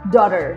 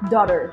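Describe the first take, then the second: First: The T sounds like D and the R is pronounced. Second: The same.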